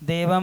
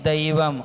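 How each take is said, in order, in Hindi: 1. पहला स्वर एक सादा 'e' ध्वनि है। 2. पहला स्वर एक 'ai' द्विस्वर है। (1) "देवम नहीं" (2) "ऐ की मात्रा है ना"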